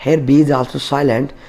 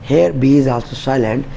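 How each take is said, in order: Both takes have the same delivery.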